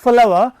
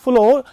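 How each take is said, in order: First: The word sounds like 'flower'. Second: The word sounds like 'flow'. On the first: The speaker calls it right. "pronunciation for the words is same" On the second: The speaker calls it wrong. "It is not flow as generally people read it"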